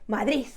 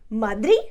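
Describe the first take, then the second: First: The final d sounds like a strong z. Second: The final d is dropped, ending on the vowel. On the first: "you make that D like a Z, like a really, really, really strong Z" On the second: "you skip that D at the end, you don't pronounce the D"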